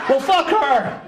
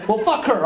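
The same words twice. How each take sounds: First: High-pitched, exasperated outburst; mock outrage, pitched well up; indignant defiance. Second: Slightly raised, dismissive retort; understated indignant comeback; mild defiance. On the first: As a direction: throw it out as an escalated comeback. Escalated repeat after audience laughs at him. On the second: Retold or imitated. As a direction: shrug off the critic with wounded pride. Defiant first reaction to the grunt.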